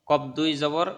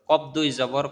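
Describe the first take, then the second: The two takes are said the same way.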